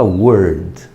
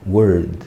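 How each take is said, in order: First: "Word" in full English, with a strong r; exaggerated English. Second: "Word" said the relaxed Brazilian way, as uord; Portuguese-style. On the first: Teacher mocking the fussy English way of saying "Word". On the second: Teacher showing the easy Brazilian way to say "Word". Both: Shown as a demonstration. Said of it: "Eu não preciso falar Word".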